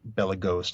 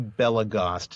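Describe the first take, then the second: First: The O is long, rhyming with toast. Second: The O is short, rhyming with crossed. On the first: The speaker calls it wrong. "not Belagost. not toast" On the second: The speaker calls it right. "it's actually Belagost, It rhymes with crossed"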